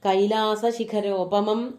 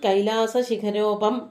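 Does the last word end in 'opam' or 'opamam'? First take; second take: opamam; opam. First: The last word ends with a longer 'opamam'. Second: The last word ends with a short 'opam'. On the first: The speaker calls it right. "എന്ന് പറയണം" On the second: The speaker calls it wrong. "അതും അക്ഷരത്തെറ്റാണ്"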